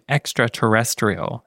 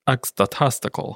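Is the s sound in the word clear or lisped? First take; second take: clear; lisped. First: The s sound is said clearly. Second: The s sound is said with a lisp. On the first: "instead of saying extraterrestrial" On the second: "it sounds like extraterrestrial"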